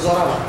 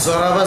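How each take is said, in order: The two takes are said the same way.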